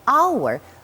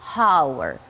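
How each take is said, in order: First: The word starts with no h sound. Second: The word starts with an audible h sound. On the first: The speaker calls it right. "We just swallow this H and we pronounce hour" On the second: The speaker calls it wrong. "but we do not say hour"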